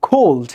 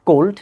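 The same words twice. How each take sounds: First: 'cold' with a puff of air after k; aspirated k. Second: 'cold' with no puff after k; unaspirated k. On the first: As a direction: breathe out on the k of 'cold'. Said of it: "cold, not cold". ('cold' মহাপ্রাণ খ দিয়ে) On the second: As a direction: hold back the air on 'cold'. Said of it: "not cold". ('cold' অল্পপ্রাণ ক দিয়ে) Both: Shown as a demonstration.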